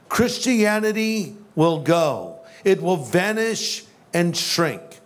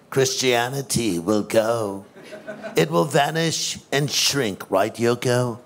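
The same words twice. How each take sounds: First: Said in the usual way. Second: [name] impression. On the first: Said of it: "I probably should say it as John would have said it". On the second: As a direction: play [name] in a lazy, low Liverpool accent. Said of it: "say it as John would have said it".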